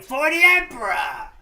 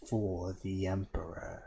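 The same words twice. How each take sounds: First: Loud, higher accented war cry; accented battle-cry shout. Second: Said in the usual way. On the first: Shown as a demonstration. Fan showing the meme to a friend, accented shout. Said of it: "people are shouting with an accent". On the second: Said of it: "Not even exclamation mark".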